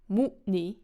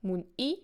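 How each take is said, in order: First: The stress is on the first syllable. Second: The stress is on the last syllable. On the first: It means to accomplish or achieve. "Mu'ni is stressed on the first syllable" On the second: It means to cut. "Mun'i is stressed on the last syllable"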